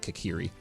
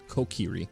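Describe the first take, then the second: First: The first syllable sounds like 'ka'. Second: The first syllable sounds like 'ko'. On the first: The speaker calls it wrong. "I always say it wrong, I say Kakiri" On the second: The speaker calls it right. "but it's Kokiri"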